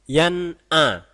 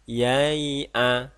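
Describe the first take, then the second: First: The n sound is pronounced clearly and firmly. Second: The n sound is not pronounced clearly. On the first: The speaker calls it right. "Nun sukun terbaca dengan sangat jelas dan tegas" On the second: The speaker calls it wrong.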